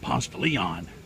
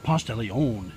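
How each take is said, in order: First: Leon is said like the English name. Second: Leon is not said like the English name. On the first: This is how it was said at school. "we pronounced it Ponce de Leon, and I knew that was the correct pronunciation because my brother's name was Leon" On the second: This is not how it was said at school. "We didn't pronounce it uh"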